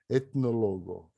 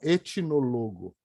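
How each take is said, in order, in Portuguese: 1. O t vai direto para o n. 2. Uma vogal extra vem depois do som do t. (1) "essa é a palavra" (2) "não etnólogo. Tá errado"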